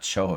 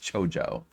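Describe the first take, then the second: First: The middle consonant is an H sound. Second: The middle consonant is a J sound. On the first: The speaker calls it wrong. "It's not pronounced like a Spanish word" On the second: The speaker calls it right. "It's a Japanese word"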